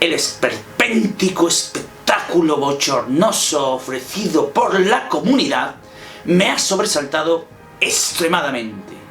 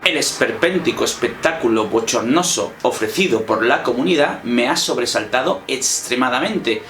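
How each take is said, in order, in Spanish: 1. Se dice con un tono enojado y con pausas. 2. Se dice con un tono plano y neutro. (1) "como enfado" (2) "decir una oración de manera totalmente neutra"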